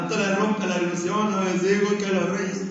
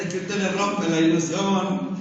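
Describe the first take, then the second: First: Imitating a son in tears, voice changed; half-hearted retold sob; mock crying. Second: Said in the usual way. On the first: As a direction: play the grown son whimpering that the grandfather ruined it. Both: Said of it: "Ya está llorando".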